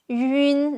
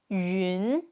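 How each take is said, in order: First: The syllable is said without its tone. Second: The syllable is said with its tone. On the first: "now we just add n after it" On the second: "Now add the tones"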